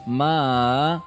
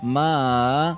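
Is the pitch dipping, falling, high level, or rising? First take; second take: dipping; dipping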